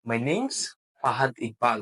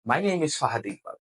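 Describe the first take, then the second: First: The words 'name is' are contracted to 'name's'. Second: The words 'name is' are said in full. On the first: The speaker calls it right. "My name ইজ না বলে আমরা কিন্তু বলব my নেমস" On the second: The speaker calls it wrong. "আপনি এভাবে বললেন। কিন্তু এটা সচরাচর সবাই বলবে।"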